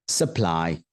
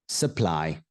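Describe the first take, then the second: The two takes are said the same way.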